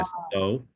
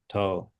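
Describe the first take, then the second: First: The word is said in full, two syllables. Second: The word is shortened to one syllable. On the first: "Instead of saying" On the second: "everyone shortens it to to"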